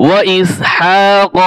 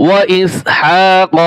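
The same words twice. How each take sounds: No difference in how they are said.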